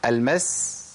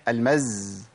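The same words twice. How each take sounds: First: المس held on a voiceless hiss; long clean s closing المس; running s. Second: المز held on a voiced buzz; long z closing المز; stopped-breath z. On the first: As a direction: let the breath flow at the end of المس. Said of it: "أنا قلتها مشيت نفس". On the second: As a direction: hold back breath and buzz the end of المز. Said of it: "منعت النفس". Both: Shown as a demonstration.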